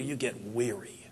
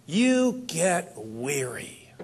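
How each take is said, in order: First: Weary. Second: Very slow, drawn-out and tired; slow weary. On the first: Speaker describing weariness. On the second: Speaker telling the audience about growing tired, slow and weary. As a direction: let each word sag with fatigue. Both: Acted.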